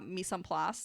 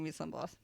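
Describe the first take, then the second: First: The phrase is said clearly and distinctly. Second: The phrase is mumbled and indistinct.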